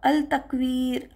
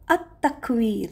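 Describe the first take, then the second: First: The L of the article is clearly pronounced. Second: The L is dropped and the T doubled. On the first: The speaker calls it wrong. "अल तकवीर पढ़ेंगे तो वो गलत हो जाएगा" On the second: The speaker calls it right. "लाम साकिन स्किप हो जाएगा"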